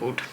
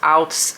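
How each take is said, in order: First: The word is said with an English pronunciation. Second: The word is said with a Dutch pronunciation. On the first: The speaker calls it right. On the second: The speaker calls it wrong.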